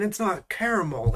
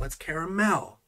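First: Caramel ending in MUL, CARE-uh-mul; rejected pronunciation. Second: Caramel ending in a clear MEL; insisted pronunciation. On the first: Arguing with Google, caramel as CARE-uh-MUL. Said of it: "where's the mole part?". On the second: Arguing with Google, caramel as CARE-uh-MEL. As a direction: punch the last syllable of "caramel" as MEL. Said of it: "This says mel". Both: Shown as a demonstration.

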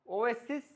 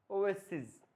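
First: Said in the usual way. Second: ওয়েসিস falling to a voiced z or j ending; final j sound. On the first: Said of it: "এরপরে ওয়েসিস". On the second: Shown as a demonstration. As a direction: buzz the last consonant of ওয়েসিস, pitch dropping. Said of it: "লাস্টে জ".

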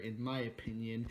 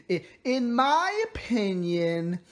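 First: Said in the usual way. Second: "in my opinion" drawn out slowly, higher; emphatic repeat. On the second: Real, not acted. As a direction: stretch "in my opinion" slowly and pitch it up. Same phrase repeated with emphasis.

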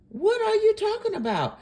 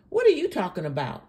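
First: Much higher, exasperated question; high, indignant challenge; incredulous repeat. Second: Fast, incredulous question; rapid real challenge at usual pitch; quick challenge. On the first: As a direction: repeat it in high-pitched disbelief. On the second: Challenges the woman in the clip. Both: Real, not acted.

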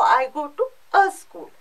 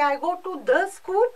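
First: "a" set apart and stressed before school. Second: "the" picked out before school; stress on THE. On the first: Teacher showing French needs an article, stress on "a". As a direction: punch the added article "a". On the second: Teacher showing French needs an article, stress on "the". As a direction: lean on the added article "the". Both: Shown as a demonstration. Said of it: "Every noun has to be preceded by an article".

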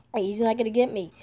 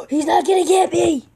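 First: Said in the usual way. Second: Excited shout. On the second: Real, not acted. Excited shout about being safe.

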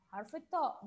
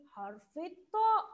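First: Said in the usual way. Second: Drawn-out, rising الطاء to show the long vowel; teacher stretching الطاء for kids; stretched letter name. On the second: Shown as a demonstration. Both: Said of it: "الحرف الممدود في قطار ايه؟".

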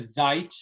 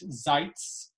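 First: Said in the usual way. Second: ZEITZ ending in a ts sound. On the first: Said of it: "which would be standard Yiddish". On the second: Shown as a demonstration. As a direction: close "Zeitz" on a crisp ts.

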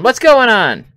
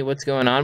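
First: High, loud and panicked; alarmed shout. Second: Said in the usual way. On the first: Real, not acted.

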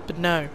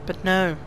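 Both takes have the same delivery.

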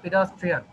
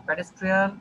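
First: Pedestrian said as pi-das-trian; corrected pronunciation of pedestrian. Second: Pedestrian with pe-des at the start; wrong pronunciation of pedestrian. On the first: Teacher correcting students to the pi-das pronunciation of pedestrian. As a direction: model pedestrian with pi-das at the start. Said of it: "এটা উচ্চারণ হচ্ছে আমাদের". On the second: Teacher showing students the mistaken pe-des pronunciation of pedestrian. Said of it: "এটা একটু ভুল". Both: Shown as a demonstration.

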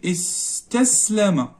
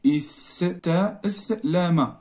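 First: Said in the usual way. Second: استسلم very slowly, each syllable apart; slow dictation. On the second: Shown as a demonstration. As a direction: draw out استسلم as if writing it letter by letter. Dictating word while writing it.

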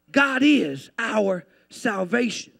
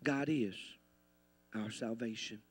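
First: Slow, full-voiced proclamation; emphatic declaration. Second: Very soft, low near-murmur; hushed repeat. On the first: Preacher declares salvation to the church, slow and emphatic. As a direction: proclaim it word by word to the congregation. Declaration, then hushed repeat. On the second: Preacher repeats salvation to the church, hushed and low. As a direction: let it sink in quietly. Same declaration repeated very softly. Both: Real, not acted.

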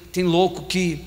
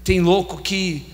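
Both takes have the same delivery.

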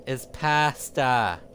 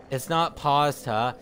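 First: Slow, with "pasta" said "pass-tuh", flat a as in cat; American pasta. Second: Slow, with "pasta" said "pahs-tah", open a and crisp t; Italian-style pasta. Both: Shown as a demonstration.

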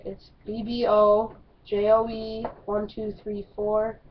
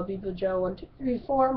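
First: "B B O J O E" spelled letter by letter, each letter said separately. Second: Said in the usual way. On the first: Shown as a demonstration. Streamer spelling his Roblox name for viewers, letter by letter. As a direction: spell out "B B O J O E" one letter at a time, then the digits. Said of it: "I'll spell it out". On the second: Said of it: "I'll say that slowly".

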